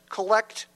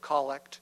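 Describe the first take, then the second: First: The stress is on the second syllable. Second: The stress is on the first syllable. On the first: It means gathering things as a collector. "I'm going to say it with the transposed accent" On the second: It names a short prayer. "instead of collect"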